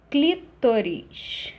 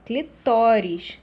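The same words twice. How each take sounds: First: "clítoris" drawn out, stressed on CLÍ; stress shifted early. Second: "Clitóris" louder and slow, stressed on TÓ; penultimate stress. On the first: Teacher showing the error, "clítoris" slowly with stress on CLÍ. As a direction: stretch and hit the first syllable of "clítoris". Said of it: "Deslocamento do acento tônico". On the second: Teacher correcting the error, "Clitóris" slowly with stress on TÓ. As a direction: hit the middle syllable TÓ of "Clitóris". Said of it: "sem acento". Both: Shown as a demonstration.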